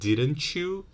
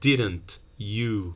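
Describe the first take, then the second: First: The t and y merge into ch. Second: The t is a plain t sound.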